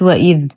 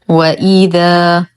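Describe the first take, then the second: First: The final vowel is cut short or dropped. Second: The final vowel is held for two counts. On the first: The speaker calls it wrong. "وليست وإذ" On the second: The speaker calls it right. "وإذا، وليست وإذ"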